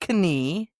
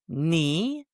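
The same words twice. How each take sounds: First: The word begins with a K sound. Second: The word begins with an N sound. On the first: The speaker calls it wrong. "not knee" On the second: The speaker calls it right. "It's knee"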